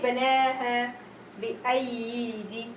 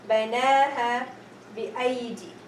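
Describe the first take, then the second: First: The second ya sound is pronounced. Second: The second ya sound is left silent. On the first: The speaker calls it wrong. "I'm not going to say banaha bi'aydi" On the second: The speaker calls it right. "The second ya has a, a round zero, is ignored"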